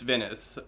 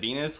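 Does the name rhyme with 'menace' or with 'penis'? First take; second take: menace; penis. First: The name sounds like 'Venice', with a short first vowel. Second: The name rhymes with 'penis', with a long first vowel. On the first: The speaker calls it right. "It's Venice" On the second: The speaker calls it wrong. "I said Venus, like which rhymes with penis"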